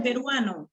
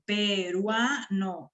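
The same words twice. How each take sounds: First: Said in the usual way. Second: Peruano very slowly in syllables, leaning on the A; stressed syllable shown. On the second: Shown as a demonstration. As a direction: break peruano into pe-rua-no, drawing out RUA. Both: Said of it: "esa también es la sílaba que suena más".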